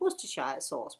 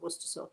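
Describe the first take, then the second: First: The sauce name is said the American way. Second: The sauce name is said the British way. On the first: The speaker calls it wrong. "as some Americans would say" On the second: The speaker calls it right. "but it's really Worcester sauce"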